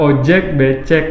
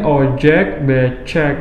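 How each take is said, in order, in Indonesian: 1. Diucapkan dengan pelafalan bahasa Indonesia yang biasa. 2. Diucapkan dengan pelafalan ala bahasa Inggris. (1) "Dia gak bisa bilang ojek becek" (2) "dia bilangnya ojek becek gitu karena dia terbiasa menggunakan um, pronunciationnya huruf luar negeri"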